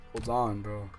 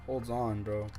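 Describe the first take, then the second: No difference in how they are said.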